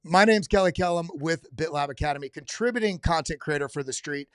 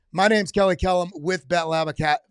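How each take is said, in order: First: Steady announcer-style intro; restarting the line. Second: Louder announcer-style intro retake; restarting the line. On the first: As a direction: read the intro cleanly as a promo. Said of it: "do it again". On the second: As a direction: punch the intro like a promo read. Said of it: "Let me say that again 'cause I'm actually recording this". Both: Shown as a demonstration.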